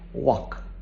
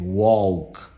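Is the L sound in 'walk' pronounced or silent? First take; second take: silent; pronounced. First: The L sound is silent in the word. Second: The L sound is pronounced in the word. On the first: The speaker calls it right. "that L is silent. So you have to listen to people saying walk" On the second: The speaker calls it wrong. "they pronounce the L, they say walk"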